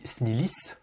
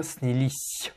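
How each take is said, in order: First: Снились ending in a hard s; imitated mispronunciation. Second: Снились ending in a long palatal "sʲ"; softened final S. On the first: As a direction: end снились on a plain hard "s". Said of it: "Toi, tu dis". (снились avec un s final dur) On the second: Shown as a demonstration. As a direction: soften the last consonant of снились. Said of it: "mouiller le S à la fin". (снились avec le s final mouillé)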